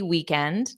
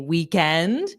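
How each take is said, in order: First: The pitch rises only very slightly at the end. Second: The pitch rises sharply and dramatically at the end. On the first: The speaker calls it right. "just a very slight rise at the end" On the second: The speaker calls it wrong. "you don't have to be overly dramatic about it"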